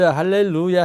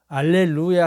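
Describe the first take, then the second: First: The word begins with an h sound. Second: The word begins directly with a vowel. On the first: "할렐루야 해도 되고" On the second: "H 발음을 무마 시켜버려요"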